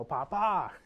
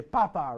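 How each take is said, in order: First: "Papa" stressed on the last syllable; papá with accent. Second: "Papa" stressed on the first syllable, PA-pa; wrong stress papa. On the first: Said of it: "Make sure you put the accent mark". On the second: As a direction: say "Papa" with the stress up front, like potato. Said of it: "you don't wanna say". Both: Shown as a demonstration.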